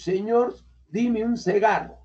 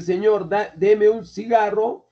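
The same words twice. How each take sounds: First: "dime" said with an i instead of the e of deme; learner's mispronunciation. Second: Said in the usual way. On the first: Shown as a demonstration. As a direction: swap the e in "deme" for an i, "dime un cigarro". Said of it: "yo he dicho". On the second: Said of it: "En lugar de decir".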